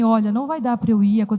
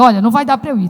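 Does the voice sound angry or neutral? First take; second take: neutral; angry. First: It is said in a calm, neutral tone. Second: It is said in an irritated, angry tone. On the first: The writer means it kindly. "se a gente manda uma mensagem escrita" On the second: The reader takes it as an angry message. "nossa, ela está com raiva"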